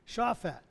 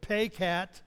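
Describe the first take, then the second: First: The name begins with an SH sound. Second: The name begins with a P sound. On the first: "the other pronunciation from another person" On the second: "how to pronounce it, was paycat, you know, P-A-Y-C-A-T"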